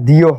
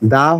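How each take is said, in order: First: The word ends in an 'ee' vowel. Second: The word ends in a short 'uh' vowel. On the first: The next word starts with a vowel. "আবার দিও হয়" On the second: The next word starts with a consonant. "এর উচ্চারণ দুই রকম হয়, দা হয়"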